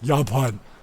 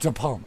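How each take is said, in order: First: It is pronounced the German way. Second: It is pronounced the English way. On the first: "In Germany, it's Japan" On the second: "I never say this name in, in English"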